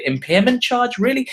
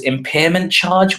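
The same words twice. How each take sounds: First: High, disbelieving repeat of impairment charge; incredulous. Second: Said in the usual way. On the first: Shown as a demonstration. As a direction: echo the phrase Impairment charge as if you can't believe it. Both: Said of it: "which is a bit weird".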